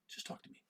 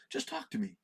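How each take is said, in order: First: "Just talk to me" breathed as a soft whisper; whispered repeat of "Just talk to me". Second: Said in the usual way. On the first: Shown as a demonstration. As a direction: drop it to a whisper, pleading.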